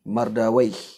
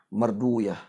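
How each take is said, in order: First: The name ends with an -awaih sound. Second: The name ends with an -uyah sound. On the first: This is the reading of language scholars. "ulama lughah boleh baca" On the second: This is the reading of hadith scholars. "dibaca oleh ulama hadis dengan wiyah"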